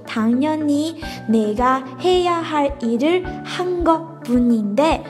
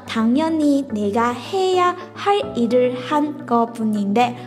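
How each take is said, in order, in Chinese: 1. 这句话读得更慢一些。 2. 这句话是以正常速度读的。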